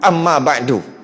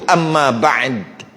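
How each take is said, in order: First: The final consonant is followed by a short vowel. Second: The final consonant is said without a following vowel. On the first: The final vowel is kept even when pausing. "Tetap juga wa ba'du, amma ba'du, walaupun kita nak berhenti" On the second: The pause is marked by dropping the final vowel. "patutnya gitu"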